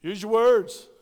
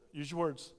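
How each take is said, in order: First: Loud, firm instruction; emphatic. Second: Said softly and gently. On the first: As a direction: call it out to the kids. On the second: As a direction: ease it out quietly. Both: Shown as a demonstration. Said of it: "What do you want them to do".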